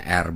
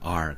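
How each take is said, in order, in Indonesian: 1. R digulung dengan kuat, gaya Indonesia. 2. R lembut, gaya Inggris. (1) "di bahasa Indonesia R ya R" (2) "bukan R"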